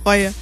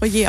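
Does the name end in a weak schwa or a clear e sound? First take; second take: weak schwa; clear e. First: The name ends in a weak schwa sound. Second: The name ends in a clear e sound. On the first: This is the everyday family way of saying it. "Der sagt auch Reue" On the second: This is the original classic way of saying it. "eigentlich ganz klassisch würde man es Reue aussprechen"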